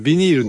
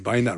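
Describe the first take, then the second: First: The word begins with a 'bee' sound. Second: The word begins with a 'bye' sound. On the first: This is the form used in Japan. "ビニールって言わないですね、海外。" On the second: This is the form used overseas. "バイナルなんですね。"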